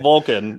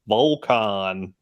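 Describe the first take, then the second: First: The first syllable sounds like 'vul'. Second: The first syllable sounds like 'vol'. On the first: The speaker calls it right. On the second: The speaker calls it wrong.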